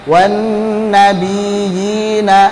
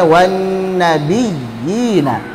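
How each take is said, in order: First: The ya is weakly pressed, like a long vowel. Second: The ya is firmly pressed as a doubled consonant. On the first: The speaker calls it wrong. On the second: The speaker calls it right. "harusnya wan nabiyina"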